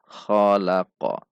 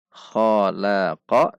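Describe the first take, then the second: First: "khalaqa" diakhiri qaf sukun yang memantul; qalqalah memantul. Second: Said in the usual way. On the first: Shown as a demonstration. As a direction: pantulkan q di akhir "khalaq". (qaf sukun "khalaq" dipantulkan) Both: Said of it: "maka dibaca memantul".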